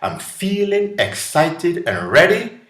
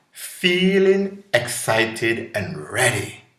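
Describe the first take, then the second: First: Quoted with a bright high lift, thrilled; excited. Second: Calm affirmation. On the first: Retold or imitated. Someone imagining a new word for fear, excited. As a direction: sound thrilled and ready to go. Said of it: "But if somebody said". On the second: Shown as a demonstration.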